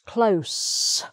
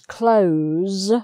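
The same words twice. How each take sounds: First: The word ends with a hissing s sound. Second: The word ends with a buzzing z sound. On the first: It is the noun or adverb meaning near. "for the noun and the adverb, it's close with an S sound" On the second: It is the verb meaning to shut. "for the verb is close with a Z sound"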